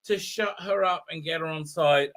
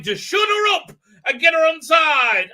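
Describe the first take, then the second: First: Said in the usual way. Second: High, loud, hammed-up exclamation; mock enthusiastic shout. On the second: Doctor explaining the treasure plan, mock enthusiastic shout. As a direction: shout it mockingly, as if a brilliant plan. Mocking the Doctor's stated reason.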